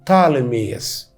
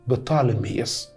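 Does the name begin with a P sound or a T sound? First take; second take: T sound; P sound. First: The name begins with a T sound. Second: The name begins with a P sound. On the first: This is how modern foreign languages like English say it. "فما ننطقش البي الاولانيه" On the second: This is the original Greek form. "المهم ان اسمه اليوناني بطالميوس"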